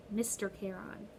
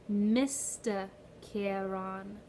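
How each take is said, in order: First: Said in the usual way. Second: "Mister Charon" drawn out slowly, each syllable spelled out; slow demo of Mister Charon. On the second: Shown as a demonstration. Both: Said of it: "Say it with me".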